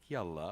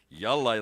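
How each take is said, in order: First: It is said softly and agreeably. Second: It is said sharply and with frustration. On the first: Sure, let's go, I'm on board. "it can be very soft, like yalla" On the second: You're driving me nuts, get moving. "like you're driving me nuts and frustrating the heck out of me"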